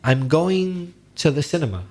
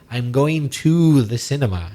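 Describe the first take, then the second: First: The word 'to' is reduced to a weak 't'. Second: The word 'to' is said fully as 'too'. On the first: The speaker calls it right. "we normally use the weak form" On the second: The speaker calls it wrong. "It sounds very unnatural"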